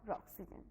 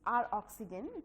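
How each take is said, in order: First: The R is blended into a single word. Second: The R is said as a separate letter. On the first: "or Roxygen" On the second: "You can say it R oxygen two"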